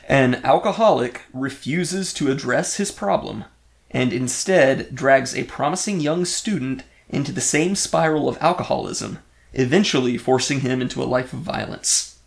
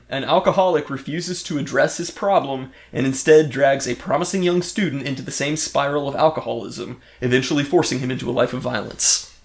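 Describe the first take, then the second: First: It is read more slowly. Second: It is read at a normal pace.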